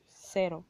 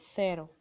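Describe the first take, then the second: First: The word begins with an 's' sound. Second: The word begins with a 'th' sound.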